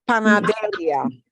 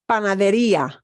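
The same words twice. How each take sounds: First: The i blends with the final a, unstressed. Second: The i is stressed, split from the final a. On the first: The speaker calls it wrong. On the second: The speaker calls it right. "we want to punch that E more than the ah"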